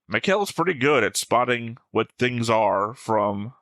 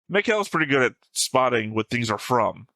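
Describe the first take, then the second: First: The sentence is read with an odd melody. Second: The sentence is read with a natural melody. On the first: The speaker calls it wrong. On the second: The speaker calls it right.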